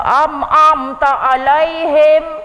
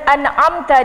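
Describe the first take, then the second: First: The opening syllable is doubled as am-am. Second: The opening syllable is a single an. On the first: This is a common recitation mistake. The speaker calls it wrong. "tu yang ngatuknya pun jadi imam kita" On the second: This is the corrected recitation. The speaker calls it right. "kita hanya betulkan an'amta dia hari ni"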